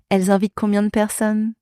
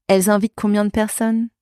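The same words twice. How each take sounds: The two takes are said the same way.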